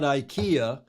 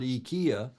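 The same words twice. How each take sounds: First: The name gets the American pronunciation. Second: The name gets the European pronunciation. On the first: "we in the states we call it IKEA" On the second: "in Europe you would call it IKEA"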